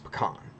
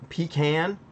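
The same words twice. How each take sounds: First: It is said with a Western pronunciation. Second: It is said with a Southern pronunciation. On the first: "you go out west and it's pecan" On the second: "so pecan is a southern. It's a southern saying"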